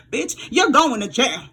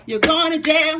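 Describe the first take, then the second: First: Slow, drawn-out mock verdict; slow taunt. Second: Higher, gleeful repeat of the sentence; gleeful verdict. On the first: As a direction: spell out their sentence slowly. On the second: Pretend. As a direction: gloat as you say it again. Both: Taunting the wrongdoers.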